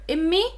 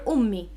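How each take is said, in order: First: The word starts with an I sound. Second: The word starts with a U sound. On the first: This is the Levantine form. "Immi is more like known in the Levantine countries" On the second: This is the Modern Standard Arabic form. "Ummi is closer to the M S A"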